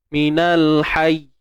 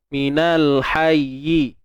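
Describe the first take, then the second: First: It is cut off, stopping on the consonant. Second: It flows on, ending with a final vowel. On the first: The reader stops at this word. "sekarang ni kita potong kat sini" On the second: The reader continues on without stopping. "Kita naik turun"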